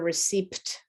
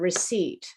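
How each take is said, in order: First: The P sound is pronounced in the word. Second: The P sound is silent in the word. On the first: The speaker calls it wrong. "It's not a receipt" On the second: The speaker calls it right. "the bill that you get when you buy something is a receipt"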